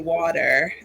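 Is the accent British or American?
American. It is said in an American accent.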